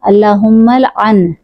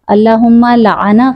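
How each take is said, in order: First: The first letter carries no vowel. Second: All three letters carry a short 'a' vowel. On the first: It asks for the curse as a prayer. The speaker calls it right. "लाम पर जज़म है, लाम पर ज़बर नहीं है" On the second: It reports that the curse was made. The speaker calls it wrong. "लाम, ऐन, नून तीनों पर ज़बर के साथ पढ़ रहे हैं"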